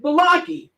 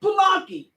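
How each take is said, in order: First: Balaki said with a clear fall; odd name call. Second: Balaki higher, called out again; repeated name call. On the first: Scene: teacher mangles a name at roll call, plain fall. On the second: Scene: teacher calls the mangled name a second time, higher. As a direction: call Balaki once more, lifted. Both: Retold or imitated. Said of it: "I said".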